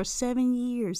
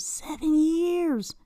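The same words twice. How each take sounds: First: Said in the usual way. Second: High, drawn-out disbelief; incredulous. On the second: Real, not acted. Host reacting to seven years on Tinder, incredulous. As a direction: stretch it slowly, aghast at the figure.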